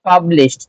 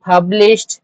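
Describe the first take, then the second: First: পাবলিশড ending in a t sound, falling to close the list. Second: Teacher saying পাবলিশড ending in a crisp t, pitch rising; পাবলিশড with the ed as a t sound, lifted. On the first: Teacher repeats পাবলিশড with ed as t, falling. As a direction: say পাবলিশড with a final t and let it drop. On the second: Teacher shows the class পাবলিশড, ed said as t. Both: Shown as a demonstration. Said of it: "ইডি, এটা হলো টির মতো উচ্চারণ হবে".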